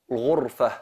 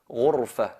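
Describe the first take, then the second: The two takes are said the same way.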